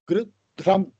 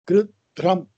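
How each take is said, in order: Both takes have the same delivery.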